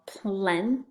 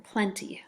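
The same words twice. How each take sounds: First: "plenty" slowly, plen, pause, tee; split into syllables. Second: Said in the usual way. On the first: Shown as a demonstration. Teacher showing the syllables, "plenty" slowly broken in two. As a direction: stretch "plenty" into two separate beats. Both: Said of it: "First syllable".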